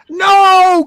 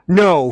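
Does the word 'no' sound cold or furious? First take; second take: furious; cold. First: The no is said in a furious, heated tone. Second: The no is said in a cold, icy tone. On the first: The refusal is openly enraged. "And then above that is" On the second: The refusal is controlled but contemptuous. "the next level up is that cold, like"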